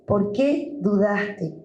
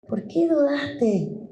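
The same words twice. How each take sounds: First: Jesus repeating. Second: Jesus asking. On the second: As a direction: ask "¿Por qué dudaste?" lifted and hushed. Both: Acted. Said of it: "y te dice".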